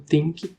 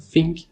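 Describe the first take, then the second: First: The first sound is pronounced like a T. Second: The first sound is pronounced like an F. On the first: "como se fosse um T normal" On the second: "pronunciarem o T H é, F"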